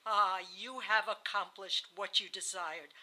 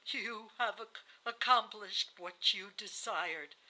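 First: Accusing, in one unbroken run; feverish accusation. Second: Slow, effortful dying speech; halting. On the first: Dying wife accusing her husband once more, feverish. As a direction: press the charge home without stumbling. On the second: Dying wife accusing her husband at the bedside, halting. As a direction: drag the words out, stumbling partway. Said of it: "uttered these words haltingly". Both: A narrator's reading.

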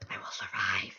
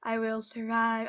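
First: Low hushed whisper of a vow. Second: Said out loud and firm; loud vow. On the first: Player vows to survive, whispering. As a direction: promise it to yourself under your breath. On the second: Player vows to survive, loud and firm. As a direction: declare it to the room. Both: Real, not acted.

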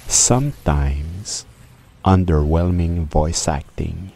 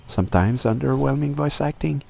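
First: Said in the usual way. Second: Pitched well up; high-pitched take. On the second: Acted. Narrator retaking his review line, high-pitched. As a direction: lift the whole line high, rising as it goes.

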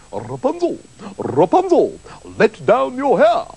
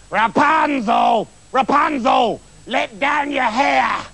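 First: Theatrical prince's call, rising at the end. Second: High, drawn-out witch's shout; witch calling up. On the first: Prince calls up to Rapunzel's window, theatrical rising call. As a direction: call up grandly, rolling into the name. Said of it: "the prince went to the tower and called out". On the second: Witch shouts up to Rapunzel in the tower, high drawn-out call. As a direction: holler up the tower, stretching each word. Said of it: "the witch came up to the tower and called". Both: A narrator's reading.

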